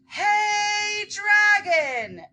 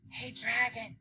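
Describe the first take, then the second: First: It is shouted very loudly. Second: It is whispered very softly.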